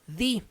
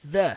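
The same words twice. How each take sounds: First: The vowel is a long 'ee' sound. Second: The vowel is a short, neutral 'uh' sound. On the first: The next word starts with a vowel. "som do i" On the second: The next word starts with a consonant. "som do a"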